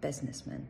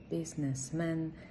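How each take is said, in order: First: The stress is on the first syllable. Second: The stress is on the last syllable. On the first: The speaker calls it right. "перемістити наголос вперед" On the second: The speaker calls it wrong. "ставимо наголос на останньому складі"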